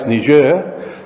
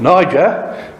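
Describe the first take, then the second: First: The name is said the French way. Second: The name is said the usual English way.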